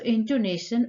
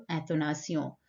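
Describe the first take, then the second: First: "intonation" in English, with a "-shun" ending; English pronunciation. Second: "intonation" in French, with a nasal "-syon" ending; French pronunciation. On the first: Teacher returns to the first question structure, English pronunciation of "intonation". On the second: Teacher repeats the French term for students, French pronunciation of "intonation". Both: Shown as a demonstration. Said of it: "intonation or intonation".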